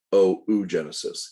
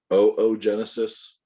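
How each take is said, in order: First: "oogenesis" with a long O, then an OO; correct oh-oo pronunciation. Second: "oogenesis" opening with two long O sounds; correct oh-oh pronunciation. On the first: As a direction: say "oogenesis" as oh-oo-JEN-uh-sis. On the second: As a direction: say "oogenesis" as oh-oh-JEN-uh-sis. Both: Shown as a demonstration. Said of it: "It is pronounced".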